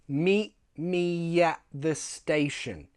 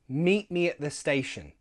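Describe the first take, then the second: First: The sentence is said slowly. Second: The sentence is said quickly. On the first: "First, slow"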